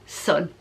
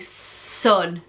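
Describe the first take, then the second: First: The S sound at the start is short. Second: The S sound at the start is drawn out. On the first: "but now it's just sun" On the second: "so she'd linger on the S sound"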